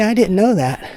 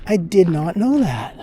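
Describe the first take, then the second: First: Said in the usual way. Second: "did not" split apart, slow, "not" weighted; slow, pull the words apart, lean on "not"; a slow "I did not know that" with "not" fully stressed. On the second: Shown as a demonstration. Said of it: "Putting the emphasis on it".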